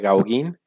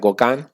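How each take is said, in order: First: The name is read as it is spelled. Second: The name is said the French way. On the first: The speaker calls it wrong. "se escribe Gauguin" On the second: The speaker calls it right. "se pronuncia Gauguin"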